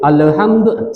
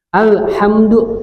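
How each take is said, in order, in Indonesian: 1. Bunyi 'Al' di awal itu pendek. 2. Bunyi 'Al' di awal itu ditahan panjang. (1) "tak boleh alhamdu, salah" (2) "Al tahan"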